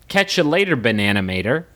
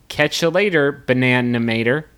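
First: The phrase is said at a faster pace. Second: The phrase is said at a slower pace.

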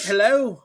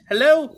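First: It is said in an attempted Russian accent. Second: It is said in an attempted Spanish accent. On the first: "This is my Russian accent" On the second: "this is my Spanish accent"

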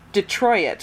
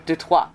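First: The last syllable has an added y sound. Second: The last syllable is said the French way. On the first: The speaker is saying it casually. "You're like putting a random Y in there, and I hate it" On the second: The speaker is being pretentious. "if you're gonna go full pretentious, like, sure. Do Detroit"

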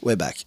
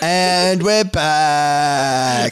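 First: It is said with low energy. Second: It is said with high energy.

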